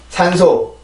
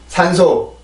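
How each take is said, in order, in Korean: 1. 한국어의 소리와 리듬으로 발음해요. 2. 한국어의 소리와 리듬으로 발음해요.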